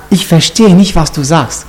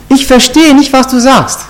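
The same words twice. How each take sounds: First: Said in the usual way. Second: High-pitched show of not getting it; playing clueless. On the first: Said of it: "warum, warum er sagt". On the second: Peter brushing off the maid as Americans do, playing clueless. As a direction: lift the voice as if totally baffled. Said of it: "so nie, gar nichts checken".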